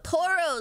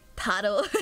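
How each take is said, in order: First: The first vowel sounds like an O. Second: The first vowel sounds like an A. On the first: The speaker calls it wrong. "That was my accent" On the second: The speaker calls it right. "like an A"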